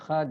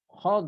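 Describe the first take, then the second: First: The final consonant is a plain light 'd'. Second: The final consonant is a heavy emphatic 'd'. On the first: The speaker calls it wrong. "bukan dal" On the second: The speaker calls it right.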